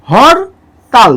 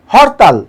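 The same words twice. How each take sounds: First: হরতাল slowly as "hor", pause, "tal"; syllable by syllable. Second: Said in the usual way. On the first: Shown as a demonstration. Teacher counts two syllables, হরতাল slowly split in two. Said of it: "দুইবার উচ্চারণ করছি". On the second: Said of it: "এটাকে উচ্চারণ করি".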